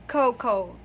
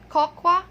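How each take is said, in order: First: It uses the native English speakers' pronunciation. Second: It uses the common Filipino pronunciation. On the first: The speaker calls it right. "but it is cocoa" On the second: The speaker calls it wrong. "So it's not cocoa"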